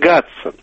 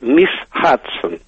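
First: The name starts with a g sound. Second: The name starts with an h sound. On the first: This is not how the name sounds. The speaker calls it wrong. "Не «Гадсон»" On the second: This is practically how it sounds in English. The speaker calls it right. "По-английски так оно и звучит практически"

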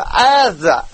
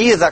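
First: The name begins with an 'eh' vowel. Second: The name begins with an 'ee' vowel. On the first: "как бы Эза!" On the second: "Даже не Иза"

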